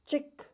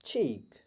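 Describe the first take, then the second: First: चिक with a short i, pitched high; चिक, demonstrating the error; wrong pronunciation. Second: चीक with a long ee; चीक, the correct model; right pronunciation. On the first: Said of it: "wrong pronunciation इस तरह है". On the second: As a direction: draw out the ee in चीक. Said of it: "जबकि right pronunciation है". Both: Shown as a demonstration.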